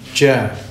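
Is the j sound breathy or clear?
breathy. The j is released with audible breathy air. The speaker calls it wrong. "Tidak betul orang mengucapkan jim itu jim"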